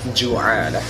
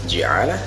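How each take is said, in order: First: The first syllable has the vowel u. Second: The first syllable has the vowel i. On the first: "bisa dibaca ju'alah" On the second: "bisa dibaca ji'alah"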